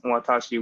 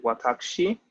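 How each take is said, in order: First: Said in the usual way. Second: Watashi with a K before the shi, "watakshi"; formal "watakushi" form of watashi, U dropped; sharper, more proper. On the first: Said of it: "ladies often replace watashi with watashi". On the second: Shown as a demonstration. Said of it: "It's just a sharper sounding".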